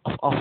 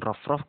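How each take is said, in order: First: The r sound is dropped at the start. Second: The r sound is pronounced at the start. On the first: "roknya sampai tidak terbaca" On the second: "mengucapkan rof rof"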